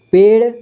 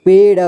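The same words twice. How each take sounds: First: Said in the usual way. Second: पेड़ split as पे, ड़; syllable by syllable. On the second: Shown as a demonstration. Teacher showing learners पेड़, sounded out in parts. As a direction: sound out पेड़ with a vowel after ड़. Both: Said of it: "इसे पढ़ेंगे".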